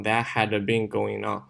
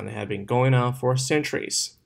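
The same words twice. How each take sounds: First: Wrong demo, "had" read too heavily; "that HAD been going on", unlinked "had"; heavy stress on had. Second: "had" unstressed and linked into "been"; light had. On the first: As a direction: separate "had" out as a full strong word. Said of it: "不要读成". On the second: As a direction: glide over "had" toward "going on". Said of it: "这个had不要读得很重". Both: Shown as a demonstration.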